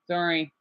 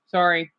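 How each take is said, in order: First: Soft, hushed apology; hushed sorry. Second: Said in the usual way. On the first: Real, not acted. Apologizing softly so Eric won't hear. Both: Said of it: "I don't want Eric to hear that".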